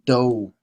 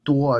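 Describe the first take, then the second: First: The vowel is a plain oh, like doh. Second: The vowel glides from an oo into oh. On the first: The speaker calls it right. "That is how do is pronounced in Chinese" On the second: The speaker calls it wrong. "This is not 多 as some people uh, mistakenly pronounce it"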